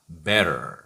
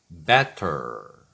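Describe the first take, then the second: First: The middle consonant is a flapped r-like sound. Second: The middle consonant is a clear t sound.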